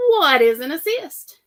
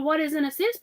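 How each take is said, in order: First: Slow and louder, each word spaced; host reading the question card aloud; quiz question read out. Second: Said in the usual way. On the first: Shown as a demonstration. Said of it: "And the question is". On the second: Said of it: "So all of y'all".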